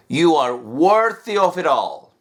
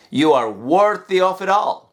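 The two takes are said the same way.

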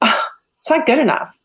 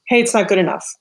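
First: It is said with a weary, exasperated sigh. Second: It is said briskly, plainly, without emotion.

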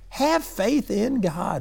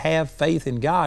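First: It is said in an exasperated, rebuking tone. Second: It is said in a plain, calm tone.

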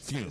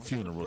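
First: The word is clipped in a Southern way. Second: The word is said in full, standard form. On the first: "The fume" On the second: "Not the funeral"

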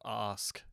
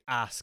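First: It is said with a southern English vowel. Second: It is said with a northern English vowel.

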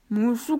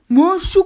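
First: It is said very quietly. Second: It is said in a loud shout.

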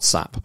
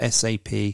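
First: It is spoken as one single word. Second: It is spoken as three separate letters. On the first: The speaker calls it wrong. "not SAP" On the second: The speaker calls it right. "I know it's SAP"

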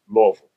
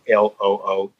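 First: The name is reduced to a short "luh-vul". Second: Every syllable of the name is clearly enunciated. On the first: The speaker is a local of the city. "it'll be L-U-H-V-U-L" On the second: The speaker is a newcomer to the city. "I would definitely enunciate that if I were to spell it out"

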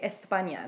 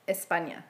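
First: The middle consonant sounds like th. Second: The middle consonant sounds like s. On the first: This is how people in Spain say it. "They say it with a TH" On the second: This is how people in Spain do not say it. "not España"

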